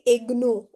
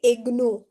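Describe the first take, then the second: First: The g and n are sounded separately. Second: The same.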